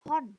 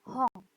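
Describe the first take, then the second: First: Hon read as written with a plain final n; spelled-out reading. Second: Hong with the final n said as a back nasal ng. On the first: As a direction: say Hon exactly as spelled, ending in n. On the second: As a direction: end Hong on ng, not n. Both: Shown as a demonstration. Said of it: "N di belakang dibacanya eng".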